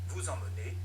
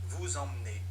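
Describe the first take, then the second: The two takes are said the same way.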